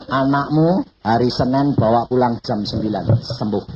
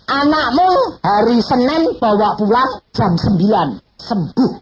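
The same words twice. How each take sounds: First: Said in the usual way. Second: High, loud, slow proclamation; voice of God. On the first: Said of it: "Terus Tuhan bilang". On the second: Retold or imitated. Preacher booms God's promise that the child heals. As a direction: announce it like a divine promise. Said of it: "Dia ngomong".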